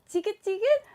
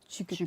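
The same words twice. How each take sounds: First: It is said in a high, cute voice. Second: It is said in a low voice.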